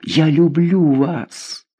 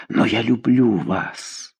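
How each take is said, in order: First: Very slow, higher, pleading "Я люблю вас"; "Я люблю вас" drawn out high and slow, begging; more desperate. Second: Slow, soft, despairing confession; a desperate lover, a little hushed; "Но я люблю вас" said slowly and quietly, in despair. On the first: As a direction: repeat it, rising in despair. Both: A narrator's reading. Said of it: "повторил он с отчаянием".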